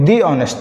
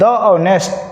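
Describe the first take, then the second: First: The word 'the' is said as 'thee'. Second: The word 'the' is said as 'thuh'. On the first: The speaker calls it right. "तो बोलिएगा sir दी honest" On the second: The speaker calls it wrong. "द honest गलत हो जाएगा"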